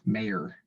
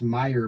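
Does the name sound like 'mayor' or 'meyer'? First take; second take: mayor; meyer. First: The name is said like the word mayor. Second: The name is said with its own intended vowels. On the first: This is how callers get the name wrong. The speaker calls it wrong. "it's always Mayor" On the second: This is the name's real pronunciation. The speaker calls it right. "It's Meyer"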